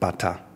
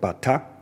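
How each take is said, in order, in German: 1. Beide Silben werden tief gesprochen. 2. Die Silben werden nicht beide tief gesprochen. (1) "Wo beide A's tief gesprochen werden, heißt Schu" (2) "ist eine bestimmte Art von Trommel"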